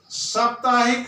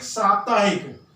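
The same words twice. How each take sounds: First: साप्ताहिक with short first vowel, as सप्ताहिक; the wrong way: सप्ताहिक; wrong pronunciation. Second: साप्ताहिक with long आ in सा; the right way: साप्ताहिक; correct pronunciation. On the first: (गलत उच्चारण: सप्ताहिक) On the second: (शुद्ध उच्चारण: साप्ताहिक) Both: Shown as a demonstration. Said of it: "अ की अशुद्धि".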